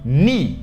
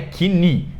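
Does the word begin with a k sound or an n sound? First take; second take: n; k. First: The word begins with an n sound. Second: The word begins with a k sound. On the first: The speaker calls it right. "E knee" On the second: The speaker calls it wrong. "que não é knee"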